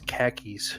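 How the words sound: It is said in a Boston accent. "the way a Boston person would say car keys"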